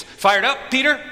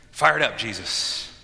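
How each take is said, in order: First: High, loud rousing question; rallying call. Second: Said in the usual way. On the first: Acted. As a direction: call out to fire up a follower. Jesus rallying disciples, acted out.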